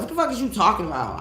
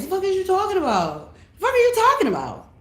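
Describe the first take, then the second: First: Said in the usual way. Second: Much higher mock churchy voice; high mock-pious version of her own line. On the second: Shown as a demonstration. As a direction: ask it like a prim church lady, pitched way up.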